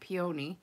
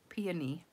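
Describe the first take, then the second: First: The stress is on the second syllable. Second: The stress is on the first syllable. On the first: The speaker calls it wrong. "I've always said peony" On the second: The speaker calls it right. "put the emphasis on the P and not the O"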